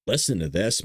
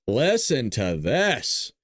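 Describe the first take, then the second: First: Said in the usual way. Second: Slow, drawn-out listen to this; slow dramatic. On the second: Pretend. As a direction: drag it out for drama.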